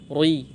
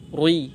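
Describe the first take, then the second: No difference in how they are said.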